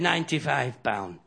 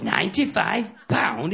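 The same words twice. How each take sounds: First: Said in the usual way. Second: Slow, disbelieving Ninety-five pound?; incredulous echo. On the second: Acted. Smoker hearing the cigarette bill, slow disbelief. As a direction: drag out Ninety-five pound like you can't believe it. Pal repeats the price in disbelief.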